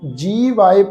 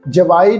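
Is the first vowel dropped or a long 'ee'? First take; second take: long ee; dropped. First: The first syllable has a long 'ee' vowel. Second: The first syllable's 'ee' vowel is dropped. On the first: The speaker calls it right. "ਜੀਵਾਏ ਪਾਠ ਪ੍ਰਨਾਉਂਸ ਕਰਨਾ" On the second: The speaker calls it wrong. "ਇਹਨੂੰ ਜਵਾਏ ਨਹੀਂ ਪੜਨਾ"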